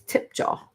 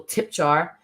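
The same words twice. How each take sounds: First: "tip jar" in British English, no R sounded; proper British pronunciation. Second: Said in the usual way. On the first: Shown as a demonstration. Imitating the British host's speech, "tip jar" without the final R. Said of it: "he talks so properly".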